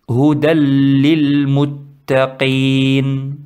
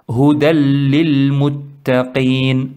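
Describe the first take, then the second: No difference in how they are said.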